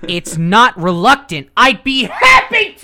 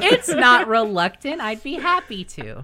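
First: It is said in an enthusiastic, convincing way. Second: It is said in a plain, casual way.

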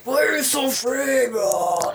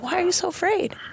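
First: It is said in a menacing Darth Vader voice. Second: It is said in a gentle, empathetic tone.

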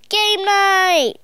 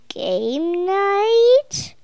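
First: It is shouted loudly. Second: It is said at normal loudness.

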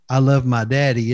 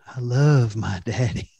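First: It sounds like a child's innocent, daughterly love. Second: It sounds like romantic, infatuated love.

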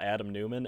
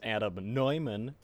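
First: The surname begins with a 'new' sound. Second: The surname begins with a 'noy' sound. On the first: The speaker calls it wrong. "It is not" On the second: The speaker calls it right. "it is"

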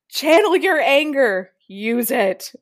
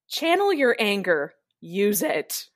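First: It is said with more intensity. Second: It is said with less intensity.

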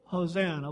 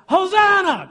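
First: It is said flatly, without enthusiasm. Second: It is said loudly, with enthusiasm.

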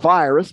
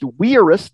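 First: The word is said with English pronunciation. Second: The word is said with Latin pronunciation. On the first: The speaker calls it wrong. "not virus" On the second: The speaker calls it right. "in Latin, it's pronounced virus"

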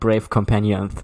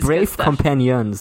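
First: Brave is said with a clear, normal sound. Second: Brave is said with a distorted, impeded sound. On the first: This is how the words should sound. The speaker calls it right. "not brave companions" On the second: This imitates how the character talks. The speaker calls it wrong. "He also can't say brave, but he can say, like, he says brave companions"

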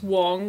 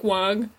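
First: The name is said with an 'o' vowel. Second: The name is said with an 'a' vowel. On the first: "his name is Wong with an O" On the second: "I've been saying Wang with an A, like"

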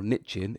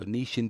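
First: It is said in an American accent. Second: It is said in a British accent.

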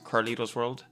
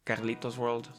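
First: The name is pronounced with English sounds. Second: The name is pronounced with Spanish sounds. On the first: The speaker calls it right. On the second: The speaker calls it wrong.

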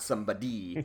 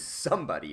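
First: The stress is on the third syllable. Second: The stress is on the first syllable. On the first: The speaker calls it wrong. "not somebody" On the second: The speaker calls it right. "even though the word is somebody"

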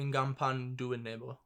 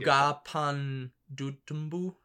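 First: The surname ends with a 'nebo' sound. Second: The surname ends with a 'tumbu' sound. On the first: The speaker calls it right. "The pronunciation guide I have is Ngapan Duenebo" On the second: The speaker calls it wrong. "I messed up the end"

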